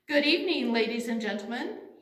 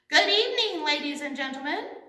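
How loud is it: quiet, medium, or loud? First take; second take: quiet; medium. First: It is said at a quiet volume. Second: It is said a little louder.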